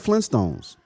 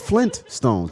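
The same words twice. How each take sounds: First: The t in 'Flint' is dropped. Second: The t in 'Flint' is clearly pronounced. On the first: The speaker calls it wrong. "people don't pronounce the T" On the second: The speaker calls it right. "It's the Flintstones"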